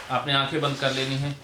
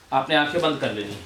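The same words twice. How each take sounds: The two takes are said the same way.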